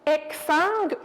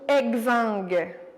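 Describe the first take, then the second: First: The x is said with a k sound. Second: The x is said with a g sound. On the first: "comme un K" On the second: "ou un G"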